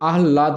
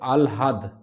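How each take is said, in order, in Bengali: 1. "h" ধ্বনি "l" ধ্বনির আগে আসে। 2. "l" ধ্বনি "h" ধ্বনির আগে আসে। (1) "এটা কিন্তু আহ্লাদ নয়" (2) "এটা কিন্তু আলহাদ"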